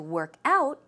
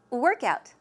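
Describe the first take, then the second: First: The stress falls on the second part, out. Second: The stress falls on the first part, work. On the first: It is the verb meaning to exercise. "To work out means to exercise as a verb" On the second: It is the noun meaning exercise. "So the stress goes where? On the first syllable"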